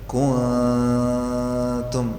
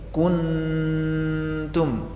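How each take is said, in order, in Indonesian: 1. Bunyi n agak samar, ujung lidah direnggangkan. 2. Lidah menempel rapat, menghasilkan dengung sengau yang kuat. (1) "Ini kalau renggang begini, ... dan ini yang benar" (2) "Yang salah jika nempel sehingga suaranya begini"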